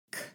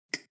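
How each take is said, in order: First: "k" with an audible puff of air; regular breathy K. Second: "k" clicked with no air; glottal clicky K. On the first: Teacher compares the two K sounds, breathy K demo. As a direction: release a breathy aspirated "k". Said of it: "one is more breathy". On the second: Teacher compares the two K sounds, airless clicky K. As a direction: hold the breath and pop "k". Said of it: "the other one has no air". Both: Shown as a demonstration.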